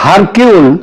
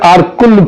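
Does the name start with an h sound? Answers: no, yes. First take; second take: yes; no. First: The name starts with an h sound. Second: The name starts with a vowel sound. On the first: The speaker calls it wrong. "ওই চারু উচ্চারণে এটা হয় হারকিউল" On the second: The speaker calls it right. "Actually উচ্চারণটা হচ্ছে আরকুল Poirot"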